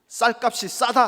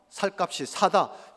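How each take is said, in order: First: The s sounds are tense. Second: The s sounds are plain. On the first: The speaker calls it right. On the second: The speaker calls it wrong.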